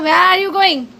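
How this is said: It is said in a loud, angry tone. The speaker is angry. "He was a angry, वो गुस्सा था इसलिए ऐसा बोल रहा था"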